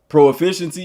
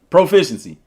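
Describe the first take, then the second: First: It is split into pro plus efficiency. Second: It is said as one smooth word. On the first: "I don't say pro efficiency" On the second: "I say proficiency"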